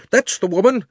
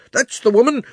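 First: High, loud outraged cry stressing That's; angry shout. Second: High, loud outraged cry stressing woman; angry shout. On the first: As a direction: repeat the accusation, punching That's. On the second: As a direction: yell it, pointing her out to the crowd. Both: Acted. Angry shopkeeper accuses the witch.

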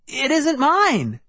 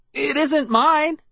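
First: High, slow insistent protest; cried out again. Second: High, slow, pleading; cried out. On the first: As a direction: repeat it pleading and high. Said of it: "I repeated". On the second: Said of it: "I cried". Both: A narrator's reading.

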